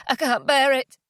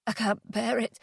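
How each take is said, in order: First: Higher, more forceful despair; pained, rising desperation; mounting anguish. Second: Soft, anguished murmur to oneself; quiet, barely holding on; subdued despair; grieving despair. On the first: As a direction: let the grief break out. Grief building to rage. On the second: Grieving alone in bed. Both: Acted.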